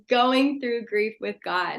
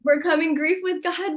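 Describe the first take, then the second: First: "Going Through Grief with God" said slowly, each word weighed, stress on Going; announcing the new title. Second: OVERCOMING said high and punched, with Overcoming as the key word; stressing the old title. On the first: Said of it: "we're gonna change the topic". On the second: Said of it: "instead of". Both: Shown as a demonstration.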